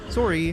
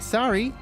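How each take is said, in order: First: It has a rounded O vowel, Canadian style. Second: It has an open A vowel, American style. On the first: "Canadians say sorry in an interesting, interesting way, because we pronounce the O" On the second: "in America, you say sorry with an A"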